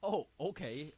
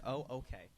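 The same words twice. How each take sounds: First: Sarcastic concession; mock-agreeable, lightly sarcastic. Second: Softer, retold concession; toned-down replay of giving in; conceding. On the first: Real, not acted. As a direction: give in while plainly not meaning it. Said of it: "did you say it sarcastically?". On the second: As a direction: give in quietly, as the bigger person. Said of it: "I was being the bigger man".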